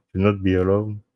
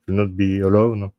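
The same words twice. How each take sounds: The two takes are said the same way.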